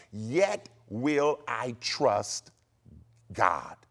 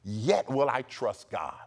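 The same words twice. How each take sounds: First: YET WILL I TRUST, GOD very slow, each word weighted; spaced-out words with a pause before a low "God"; emphatic stress. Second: Said in the usual way. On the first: Shown as a demonstration. Preacher emphasizing Job's vow to listeners, emphatic. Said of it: "And I emphasize".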